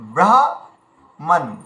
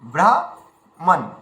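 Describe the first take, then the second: No difference in how they are said.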